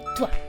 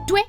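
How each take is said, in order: First: The word ends in a 'wa' sound. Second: The word ends in a 'weh' sound. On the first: This is the standard pronunciation. "en vez de toi" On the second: This is how it sounds in Quebec. "y tue en vez de toi"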